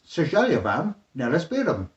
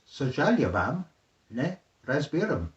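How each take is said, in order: First: The phrase is said at normal speed. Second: The phrase is said more slowly.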